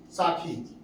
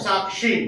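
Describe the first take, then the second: First: साखी with an aspirated kh, low and soft; colloquial साखी. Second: साक्षी with k-sh replacing kh; standard साक्षी. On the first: Teacher giving the folk form to be converted, softly pronounced. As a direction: say साखी as saa-khee. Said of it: "जैसे कहें साखी". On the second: Teacher converting the folk word to standard, carefully pronounced. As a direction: say साक्षी as saak-shee. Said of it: "खा का स्थान क्या हो जाएगा?". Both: Shown as a demonstration.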